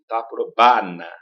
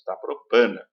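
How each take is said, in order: First: "Taprobana" slow with an open, unnasalized "ba"; Italian-style "Taprobana"; Italian-style reading. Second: "Taprobana" with nasal "bã"; Portuguese reading. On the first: Retold or imitated. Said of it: "O italiano falaria assim". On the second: Shown as a demonstration. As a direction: nasalize "Taprobana" as a Brazilian would. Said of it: "Mas nós lemos".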